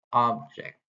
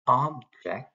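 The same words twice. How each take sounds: First: Said in the usual way. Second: "object" with the first syllable "ob" emphasized; stress on OB. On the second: Shown as a demonstration. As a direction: lean on "ob" in "object", then ease off "ject". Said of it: "we emphasize the word ob".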